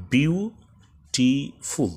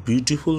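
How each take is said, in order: First: বিউটিফুল said very slowly as বিউ-টি-ফুল, pausing twice, starting higher; broken into syllables. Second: Said in the usual way. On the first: Shown as a demonstration. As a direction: stretch বিউটিফুল into three slow beats. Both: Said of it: "এখানে দুইবার থামতে হয়েছে".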